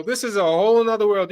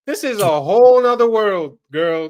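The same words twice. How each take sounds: First: Said in the usual way. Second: Louder, hitting the word whole hard; loud emphatic. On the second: Acted. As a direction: belt it out like a warning. Repeats line, first time punched.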